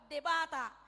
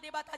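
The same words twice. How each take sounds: First: The pitch goes downward on the word. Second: The pitch is pushed upward on the word. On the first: It refers to other gods. "cara pengucapannya ke bawah debata Allah ilah-ilah lain" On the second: It refers to the one true God. "debata Jahoba penekananna tukijang"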